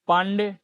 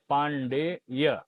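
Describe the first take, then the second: First: The name ends on a plain 'e' vowel. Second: The name ends with an added 'y' glide. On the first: The speaker calls it wrong. "पांडे गलत है जी" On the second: The speaker calls it right. "लेकिन शुद्ध क्या होता है?"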